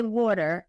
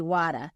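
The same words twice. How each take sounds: First: "water" with a rounded "aw" vowel; own "water". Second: "water" as "wah-ta", open vowel, no final R; regional "water". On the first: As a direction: say "water" as "waw-ter". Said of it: "I'll say water and they'll say". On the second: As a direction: imitate their "water" with an open "ah". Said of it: "they'll say water". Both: Shown as a demonstration.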